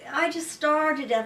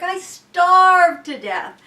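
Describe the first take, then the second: First: Said in the usual way. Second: Starved stretched out slow, higher and louder; emphatic. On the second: Real, not acted. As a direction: lean hard on starved, drawn out.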